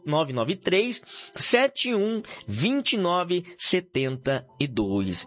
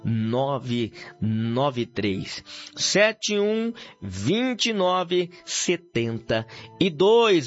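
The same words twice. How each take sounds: First: The number is said quickly. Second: The number is said slowly.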